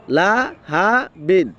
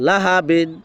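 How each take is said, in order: First: লা, হা, বিন drawn out with gaps; slow, broken up. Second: লাহাবিন run together as one word; quick, joined up. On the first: Teacher sounds out the word slowly, broken up. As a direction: stretch Laha বিন syllable by syllable. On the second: Teacher shows the quick reading, joined up. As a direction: say লাহাবিন in one go, short vowels. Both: Shown as a demonstration. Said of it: "এটা যখন দ্রুত বলবো".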